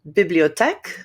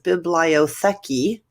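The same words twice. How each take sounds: First: It is said with a native French pronunciation. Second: It is said with an English-speaker's pronunciation. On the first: "I pronounce it the way the French people do" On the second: "a newer learner of language who is a speaker of English who looks at it and says"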